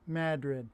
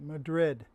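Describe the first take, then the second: First: The name is said the local regional way. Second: The name is said the usual worldwide way. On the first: This is how local people say the name. "up in the North Country, they pronounce it Madrid" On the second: This is how most people say the name. "The rest of the world pronounces it Madrid"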